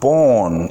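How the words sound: It is said with a British accent. "pronounced born in British English"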